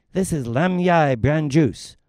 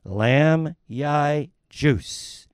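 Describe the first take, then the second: First: Said in the usual way. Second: Lam Yai juice said very slowly; asked again, slowly repeats "Lam Yai juice"; slow clear repeat. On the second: Acted. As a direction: spell out "Lam Yai juice" word by word for someone who didn't catch it.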